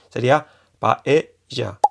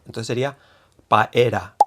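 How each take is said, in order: First: The middle consonant is an English J sound. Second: The middle consonant is an R sound. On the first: "como la J catalana o del inglés" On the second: "se escribiría como la R, ¿no? Con ra"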